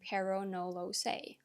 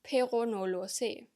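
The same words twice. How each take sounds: First: It is read with English-like sounds. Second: It is read with German-like sounds. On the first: "you might see a sentence like this and read it as" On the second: "if you're German"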